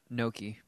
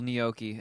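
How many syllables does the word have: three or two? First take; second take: two; three. First: The word is said with two syllables. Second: The word is said with three syllables. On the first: "and not gnocchi" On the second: "a three-syllable gnocchi"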